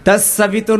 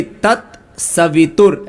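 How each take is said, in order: First: "तत्सवितुर" slurred, the t dropped; wrong way. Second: "तत्सवितुर" slow with every t clear; right way. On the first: Teacher shows the wrong way to students. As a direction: say "तत्सवितुर" running the sounds together. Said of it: "नहीं". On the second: Teacher shows students the right pronunciation. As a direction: say "तत्सवितुर" slowly and crisply. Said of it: "ऐसे बोलिए". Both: Shown as a demonstration.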